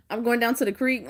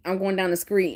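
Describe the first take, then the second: First: "creek" said as a plain kr sound; the way she misheard it: "creek". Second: "screet" said with an skr sound instead of "street"; mock country screet. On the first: Retold or imitated. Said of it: "I thought he meant, like, creek". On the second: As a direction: mimic him saying "screet". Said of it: "that's what he was saying, screet".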